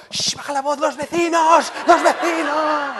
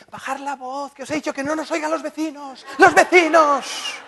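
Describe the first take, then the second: First: Much higher mock mother shushing, rising to a shout; dark ominous voice. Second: High, hushed then loud panicked mother; mother's voice. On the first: Husband imitating his mother to his shouting wife. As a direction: channel mom's hushed panic about the neighbours. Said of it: "me conecto con una voz muy oscura, muy tenebrosa". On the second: Retold or imitated. Son imitating his mother hushing the kids about the neighbours. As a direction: mimic mom shushing about the neighbours. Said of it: "¿sabéis lo que nos dice?".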